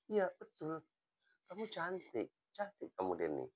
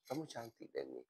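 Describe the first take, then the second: First: High, soft, sincere reassurance; reassuring compliment. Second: Much softer, hushed sincere praise; tender compliment. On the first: Teacher assuring student Denny she is beautiful, gently sincere. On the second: Teacher telling student Denny softly that she is beautiful, tender. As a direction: say it softly like a quiet promise. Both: Retold or imitated.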